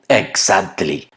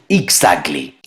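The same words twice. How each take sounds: First: The stressed vowel sounds like Spanish 'a'. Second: The stressed vowel sounds like an 'e'. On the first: The speaker calls it wrong. "la pronuncian exactly" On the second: The speaker calls it right. "Todos sabemos que la letra A es E en inglés. Lo correcto es exactly"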